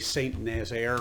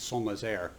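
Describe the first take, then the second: First: The name is said with an English accent. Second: The name is said with a French accent. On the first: This is how English speakers say it. "We would say" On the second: This is how the locals say it. "they pronounce it"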